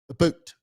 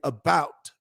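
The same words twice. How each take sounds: First: It is said in a Canadian accent. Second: It is said in a plain American accent. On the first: "the Canadians say about" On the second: "You and I say about"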